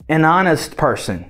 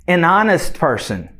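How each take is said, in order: The two takes are said the same way.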